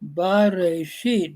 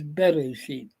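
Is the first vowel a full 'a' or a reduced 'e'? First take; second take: full; reduced. First: The first vowel is a full 'a' sound. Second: The first vowel is a short reduced 'e'. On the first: "we're shortening that first vowel to a shava" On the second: "we're shortening that first vowel to a shava"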